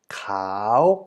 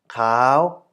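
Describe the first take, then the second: First: The syllable is said with a rising tone. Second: The syllable is said with a high tone. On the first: "instead of cow" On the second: "move it up towards uh, being a high tone"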